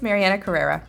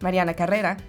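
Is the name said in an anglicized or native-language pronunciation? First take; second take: anglicized; native-language. First: The name is said with an anglicized pronunciation. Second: The name is said with its native-language pronunciation. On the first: The speaker calls it wrong. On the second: The speaker calls it right.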